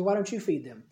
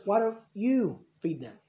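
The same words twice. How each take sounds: First: Said in the usual way. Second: Slow, with YOU drawn out and set apart; stress on YOU. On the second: Retold or imitated. Jesus turns the question back on his disciples, stress on YOU. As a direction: lean on "you", pausing round it. Stresses who must feed them.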